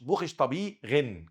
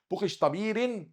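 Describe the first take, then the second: First: بوخش طبيغن slowly, the r as gh; slow model of بوخش طبيغن with a throaty r; R as ghayn. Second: بوخش طبيرن with an Arabic r, higher; wrong tongue-tip R. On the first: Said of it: "كأنك بتقول غين". (نطق بوخش طبيغن ببطء والراء غين) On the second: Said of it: "لا، بوخش". (نطق بوخش طبيرن بالراء العربية) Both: Shown as a demonstration.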